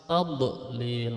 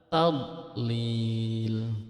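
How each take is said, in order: First: The middle consonant is released with a bouncing echo. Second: The middle consonant is held without an echo. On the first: The speaker calls it wrong. "itu memantul berarti salah" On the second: The speaker calls it right. "Harusnya dibaca dot itu tanpa pantulan"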